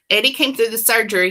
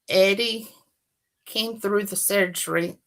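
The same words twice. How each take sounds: First: It is read in the reader's usual accent. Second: It is read in an attempted British accent. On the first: "It's not gonna work" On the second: "may I try some British?"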